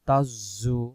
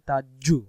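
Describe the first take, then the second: First: The middle consonant is a z sound. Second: The middle consonant is a j sound.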